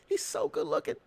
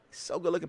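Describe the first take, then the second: First: High, dreamy mock gushing, a touch quieter; mock swooning. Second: Said in the usual way. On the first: Mocking Watson's fans, a high dreamy mock swoon.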